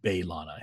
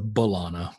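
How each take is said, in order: First: The first syllable sounds like 'bay'. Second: The first syllable is a weak 'buh'. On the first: "he pronounces it the way that Roxanne pronounces it" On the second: "which is the way I've been doing it forever"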